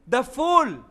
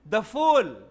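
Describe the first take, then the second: The two takes are said the same way.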